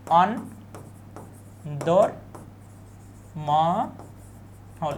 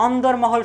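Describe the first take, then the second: First: অন্দরমহল broken into very slow syllables, long pauses between; pronunciation demo. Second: Said in the usual way. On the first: Shown as a demonstration. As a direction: sound out অন্দরমহল piece by piece, stretching each syllable. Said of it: "শব্দের উচ্চারণ থেকে কিন্তু আমাদের প্রশ্ন". (অন্দরমহল টেনে টেনে, ভেঙে ভেঙে উচ্চারণ) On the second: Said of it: "শব্দের উচ্চারণ কোনটি".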